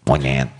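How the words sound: It is said in a harsh, hurtful tone.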